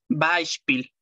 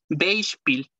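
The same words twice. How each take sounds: First: The e and i blend into one diphthong. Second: The e and i are sounded separately. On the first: The speaker calls it right. "se lee Beispiel" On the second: The speaker calls it wrong. "No se lee Beispiel"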